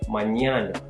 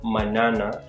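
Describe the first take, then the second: First: The middle consonant is an ny sound. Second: The middle consonant is a plain n. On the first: The speaker calls it right. "think of there being a Y after the N" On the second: The speaker calls it wrong. "a regular N"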